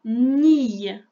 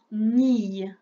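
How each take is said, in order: First: Nille dicté fort et détaché; dictée appuyée. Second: Said in the usual way. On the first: Shown as a demonstration. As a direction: dicter « nille » distinctement. (syllabe « nille » dictée fort) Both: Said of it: "Écris-moi".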